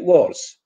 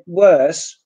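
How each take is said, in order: First: The vowel is replaced by a Polish o. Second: The vowel is the English er sound. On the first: The speaker calls it wrong. "Polish people say worse" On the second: The speaker calls it right. "instead of saying worse"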